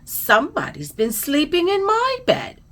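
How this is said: It is said in a high, squeaky voice. "squeaked Baby Bear"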